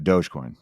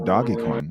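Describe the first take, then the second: First: The first part is said with one syllable. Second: The first part is said with two syllables. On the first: The speaker calls it right. "So now I'm in the know" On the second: The speaker calls it wrong. "I read it wrong"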